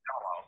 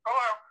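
First: A plain, natural speaking voice. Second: A high, put-on puppet character voice. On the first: This is how the man really answered. "he said" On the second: This is how a frog puppet would answer. "he didn't sound like Kermit"

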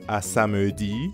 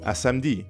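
First: The phrase is said carefully and in full. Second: The phrase is said in a casual, reduced way. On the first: "instead of à samedi" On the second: "spoken language gets messy, you're more likely to hear a French speaker say"

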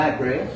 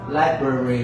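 First: The word is pronounced in a simpler, reduced way. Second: The word is pronounced in a fuller, learner-style way. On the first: The speaker calls it right. "Người ta đọc là library. ... Nó đơn giản hơn không?" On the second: The speaker calls it wrong. "người ta không có nói là library của mình"

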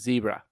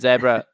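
First: It is said with an American accent. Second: It is said with a British accent. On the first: This is the usual American way to say it. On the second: This is how kids who copy the show say it.

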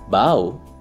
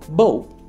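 First: The vowel sounds like in 'cow'. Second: The vowel sounds like in 'go'. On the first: Bending forward to greet someone. "when you greet someone" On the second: A weapon for shooting arrows. "like a weapon"

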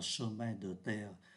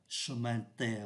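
First: The vowel in the first syllable is pronounced. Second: The vowel in the first syllable is dropped. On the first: The speaker calls it wrong. "người ta không đọc là chemin de terre" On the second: The speaker calls it right. "có ba chỗ là người ta không phát âm ký tự ơ"

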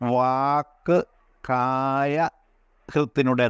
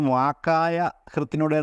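First: The first word is split into two separate parts. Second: The first word is said as one blended unit. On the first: The speaker calls it right. "എന്നാണ്" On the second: The speaker calls it wrong. "എന്ന് അല്ല ഉച്ചരിക്കേണ്ടത്"

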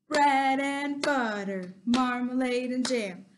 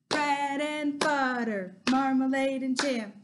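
Both takes have the same delivery.

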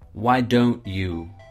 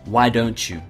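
First: Each word is said separately and fully. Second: The words run together in connected speech.

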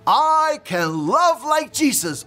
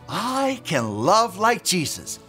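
First: It is said loudly. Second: It is said at normal volume.

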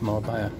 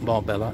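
First: The double L is said as a Y sound. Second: The double L is said as an L sound. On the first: The speaker calls it right. "Two L's is a Y in Spain" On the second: The speaker calls it wrong. "It's not Marbella"

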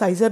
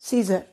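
First: The first vowel sounds like 'eye'. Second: The first vowel sounds like 'ee'. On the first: The speaker calls it wrong. "इसे साइजर नहीं बोलना" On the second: The speaker calls it right. "ए silent"

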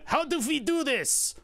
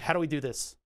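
First: It is said in an imitated German accent. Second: It is said in the speaker's ordinary accent.

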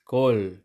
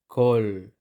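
No difference in how they are said.

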